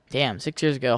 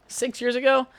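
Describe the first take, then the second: First: Said in the usual way. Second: High, rising disbelief; can't believe it's been that long; surprised question. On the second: Real, not acted. To listeners, shocked at how long ago: high surprised question.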